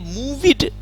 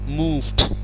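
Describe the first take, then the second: First: The word ends with an extra id syllable. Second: The word ends with a plain d sound. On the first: The speaker calls it wrong. "don't say move it, no need" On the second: The speaker calls it right. "some words that we will pronounce t only"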